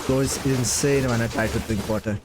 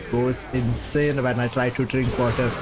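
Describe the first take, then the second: No difference in how they are said.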